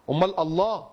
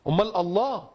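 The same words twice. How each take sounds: The two takes are said the same way.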